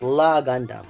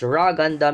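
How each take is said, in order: First: The name begins with an L sound. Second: The name begins with an R sound. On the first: This is the English version of the name. "in English it's La Gundam" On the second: This is the Japanese version of the name. "in Japanese it's called Ra Gundam because they cannot pronounce the L"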